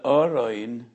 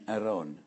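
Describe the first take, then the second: First: The word begins with an 'o' vowel sound. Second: The word begins with an 'a' vowel sound. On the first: "it's just a humorous way to say it" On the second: "the oroin is not an Aron"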